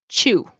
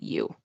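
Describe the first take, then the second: First: The word starts with a ch sound. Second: The word starts with a y sound. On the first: "T plus Y turns into ch" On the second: "instead of you"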